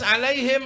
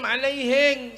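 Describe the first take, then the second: First: It is said with standard Arabic pronunciation. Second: It is said with a Bugis accent.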